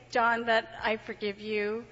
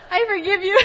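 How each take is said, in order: First: Slow, earnest forgiveness; measured, sincere "I forgive you". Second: High, loud laughing repeat; higher, louder "I forgive you" with laughter. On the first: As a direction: speak straight to John, meaning it. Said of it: "I have to say". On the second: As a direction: say it through laughter. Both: Real, not acted.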